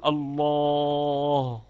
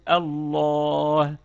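First: الله held long with the tongue staying at the ل; stuck on the lam. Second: الله drawn out, ending on a clear still ه; released into ha. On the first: Teacher imitating the faulty stop, الله stuck on the lam. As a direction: draw out الله and stop at the lam, losing the final ه. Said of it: "الذي يقف على مخرج اللام يقول". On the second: Teacher showing the correct stop, الله ending in an audible ه. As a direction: stretch الله and finish back at the throat's ha. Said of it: "نعود على مخرج الهاء الساكنة فنقول". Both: Shown as a demonstration.

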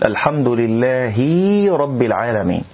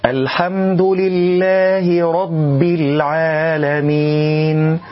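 First: "لله" ending in a long "hiii" before rabb; overdone kasra. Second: Slow, higher chant with a short clean "hi" in "لله"; measured kasra. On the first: Teacher warns against a mistake, kasra exaggerated into ya. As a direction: stretch the last i of "لله" into a ya. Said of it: "لا أن نقول". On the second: Reciter models for learners, kasra short and correct. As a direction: recite "لله" without lengthening its final i. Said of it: "دون مبالغة حتى لا نأتي بياء". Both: Shown as a demonstration.

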